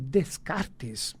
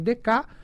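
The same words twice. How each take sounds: First: The name is said with everyday Brazilian Portuguese sounds. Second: The name is said with its original foreign sounds. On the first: This is how people here usually say it. The speaker calls it wrong. "nós normalmente falamos aqui Descartes" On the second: This is how the name is properly pronounced. The speaker calls it right. "mas se pronuncia Descartes"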